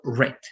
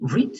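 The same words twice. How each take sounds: First: The vowel is short, like 'red'. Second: The vowel is long, like 'reed'. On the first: It is the past participle form. "like the color, red" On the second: It is the base form of the verb. "read is only in base form"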